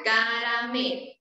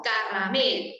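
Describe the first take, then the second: First: Caramelo with one light tapped r; soft r. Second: Caramelo with a strong trilled rr; wrong rolled r. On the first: Teacher models the correct soft r in caramelo for children. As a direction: tap the r gently in caramelo. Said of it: "y suena caramelo". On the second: Teacher shows children the wrong strong r in caramelo. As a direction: roll the r hard in caramelo, as the wrong way. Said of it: "no caramelo". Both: Shown as a demonstration.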